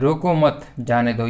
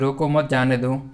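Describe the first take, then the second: First: There is a pause right after 'mat'. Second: There is a pause right after 'roko'. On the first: Do not stop him; let him go. "रोको मत इसको जाने दो, बिल्कुल इसको रोकना नहीं है" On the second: Stop him and do not let him go. "रोको मत जाने दो यानी कि इसको रोक दो और जाने मत दो इसको।"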